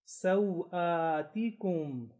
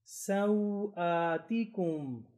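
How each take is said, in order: No difference in how they are said.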